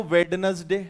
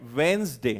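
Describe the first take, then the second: First: वेडनेसडे with every letter sounded, wed-nes-day; wrong spelled-out way. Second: वेंसडे with the silent d dropped, two syllables; correct pronunciation. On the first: Retold or imitated. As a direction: mimic Indians reading वेडनेसडे letter by letter. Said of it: "क्यों बोलते हो वेडनेसडे?". (वेडनेसडे का गलत उच्चारण, हर अक्षर बोलते हुए) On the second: Shown as a demonstration. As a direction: model वेंसडे slowly and cleanly for the class. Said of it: "मैं पहले बोलकर बताता हूं।". (वेंसडे का सही उच्चारण, d साइलेंट)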